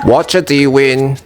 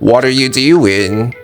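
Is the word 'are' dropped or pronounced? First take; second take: dropped; pronounced. First: The word 'are' is left out entirely. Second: The word 'are' is clearly pronounced. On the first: It is casual, lazy speech. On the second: It is clear, careful speech.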